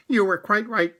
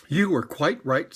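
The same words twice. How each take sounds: First: Higher, louder rabbit voice; the fussy rabbit conceding. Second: Said in the usual way. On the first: Acted. Rabbit admitting Pooh was right. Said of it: "said Rabbit".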